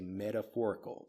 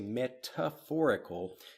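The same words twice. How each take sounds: First: The middle T is a soft, D-like sound. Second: The middle T is a crisp, clear T sound. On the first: The speaker calls it right. "We say metaphorical. The T becomes more of a D sound" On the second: The speaker calls it wrong. "we don't say metaphorical, at least not in American English"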